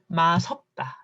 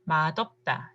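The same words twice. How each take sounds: First: The final consonant carries over as an s sound. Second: The final consonant carries over as a d sound. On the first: "If it goes just liaison" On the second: "대표 발음, representing rule"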